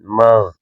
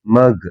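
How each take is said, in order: First: The consonant is a soft throaty gh sound. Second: The consonant is a hard g sound. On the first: The speaker calls it right. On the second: The speaker calls it wrong.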